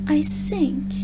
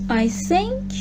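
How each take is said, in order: First: The word begins with an 's' sound. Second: The word begins with a 'th' sound. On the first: The speaker calls it wrong. "pronounce the th sound as s" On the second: The speaker calls it right. "To say th, put your tongue between your teeth"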